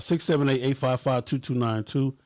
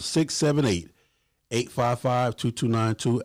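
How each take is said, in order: First: The number is said at a quicker pace. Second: The number is said at a slower pace.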